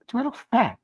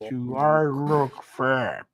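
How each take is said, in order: First: It is said in a normal voice. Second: It is said in a low voice.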